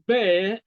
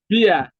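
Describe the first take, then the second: First: The vowel sounds like the one in 'air'. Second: The vowel sounds like the one in 'ear'. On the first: The speaker calls it right. "the word bear" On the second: The speaker calls it wrong. "a lot of people mispronounce it as beer"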